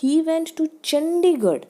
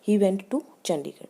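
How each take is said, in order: First: It is said as a question. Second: It is said as a plain statement.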